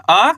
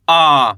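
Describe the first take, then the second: First: First आ kept short, rising at the end; short vowel. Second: आ drawn out with a falling tone; long vowel. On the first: Teacher drilling Hindi vowels for learners, short आ. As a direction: say the first आ briefly, not drawn out. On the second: Teacher drilling Hindi vowels for learners, long drawn-out आ. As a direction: stretch आ slowly and let it fall. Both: Shown as a demonstration. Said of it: "ज़्यादा खींच के नहीं पढ़ना".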